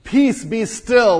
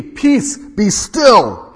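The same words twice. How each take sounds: First: Slow, loud, each word weighted; slow emphatic command. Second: High, loud command to the sea; commanding rebuke. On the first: Shown as a demonstration. Preacher repeats Jesus' command to the storm, slow and emphatic. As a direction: lean on Peace, be still as a decree. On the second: Acted. Jesus rebukes the wind and sea, loud and commanding. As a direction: order the storm to stop. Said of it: "he awoke and rebuked the wind".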